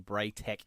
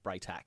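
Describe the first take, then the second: First: The final syllable sounds like 'tech'. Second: The final syllable sounds like 'tack'. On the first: The speaker calls it wrong. "when you say Braytech" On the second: The speaker calls it right. "instead of Braytac"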